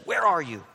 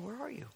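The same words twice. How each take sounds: First: It is said harshly, like an angry demand. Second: It is said tenderly, like a longing parent.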